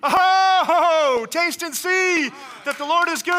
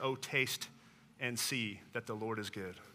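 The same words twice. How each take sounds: First: It is said in an excited tone. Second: It is read in a calm, plain tone.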